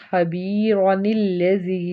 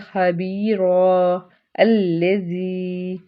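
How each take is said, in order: First: The words are joined without a stop. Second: There is a stop after the first word.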